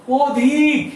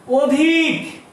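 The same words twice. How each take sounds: First: অধিক with the first vowel closed toward ও, "ওধিক"; pron demo. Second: অধিক with the first vowel as open অ; pron demo. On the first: Teacher showing the real spoken sound. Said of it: "উচ্চারণ করছি কিন্তু অধিক". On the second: Teacher showing the written form's sound. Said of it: "এখানে বলছি অধিক". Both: Shown as a demonstration.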